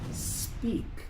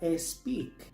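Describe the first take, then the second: First: The word begins directly with the s sound. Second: The word begins with an extra vowel before s. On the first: The speaker calls it right. "se empieza con el sonido de S" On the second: The speaker calls it wrong. "Muchos pronuncian esta palabra speak"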